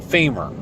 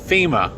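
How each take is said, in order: First: The word ends with an added R sound. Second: The word ends in a plain vowel, no R. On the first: The speaker calls it wrong. "don't put the R in a word that's not supposed to have it" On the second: The speaker calls it right. "It's FEMA, F E M A"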